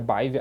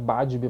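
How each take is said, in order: First: The name is said as Baive. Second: The name is said as Badib. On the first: This is the more correct pronunciation. "a pronúncia mais correta ali, mais assertiva é Baive" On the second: This is how the name is spelled. "Se escreve Badib"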